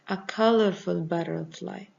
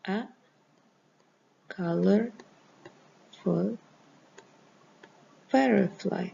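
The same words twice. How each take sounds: First: Said in the usual way. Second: A, colorful, butterfly, each word set apart by long pauses; dictating A colorful butterfly to students, word by word. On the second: Shown as a demonstration. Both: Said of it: "This is as an example".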